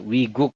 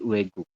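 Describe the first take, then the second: First: The first syllable is said as 'wi'. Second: The first syllable is said as 'we'. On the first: The speaker calls it wrong. "bukan Wigu" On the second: The speaker calls it right. "dibacanya ... Weguk"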